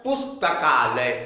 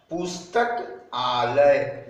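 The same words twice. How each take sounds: First: पुस्तकालय said as one word, the two sounds merged into आ; joined word. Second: पुस्तक आलय, said slowly as two separate words; separated parts. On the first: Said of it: "यहाँ क्या हो गया?". (पुस्तकालय एक शब्द में जोड़कर) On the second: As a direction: pause between पुस्तक and आलय. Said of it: "यहाँ क्या था?". (पुस्तक आलय अलग-अलग, धीरे से) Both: Shown as a demonstration.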